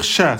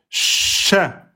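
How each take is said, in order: First: The consonant sh is short and light. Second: The consonant sh is held and doubled. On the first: The speaker calls it wrong. "On peut pas dire cha" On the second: The speaker calls it right. "on insiste"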